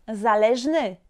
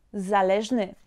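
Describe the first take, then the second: No difference in how they are said.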